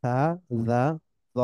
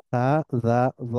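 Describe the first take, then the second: No difference in how they are said.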